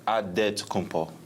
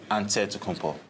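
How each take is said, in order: First: It is said with a D sound. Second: It is said with an NT sound. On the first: It follows the Nigerian way of saying it. "In the Nigerian way, you gotta say it with a D" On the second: It follows the Greek way of saying it. "in the Greek way, you say it with an N T"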